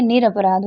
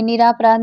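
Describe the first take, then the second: First: निरपराध with a short a, nir-a-paraadh; निरपराध spoken short and clean, shown as correct; correct form said aloud. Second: निरापराध with a long aa after nir, nir-aa-paraadh; निरापराध spoken with long aa, shown as wrong; wrong spelling said aloud. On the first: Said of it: "निरपराध होता है". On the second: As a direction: say निरापराध stretching the aa as the mistake. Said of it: "निरापराध नहीं होता है". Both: Shown as a demonstration.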